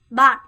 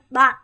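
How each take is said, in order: The two takes are said the same way.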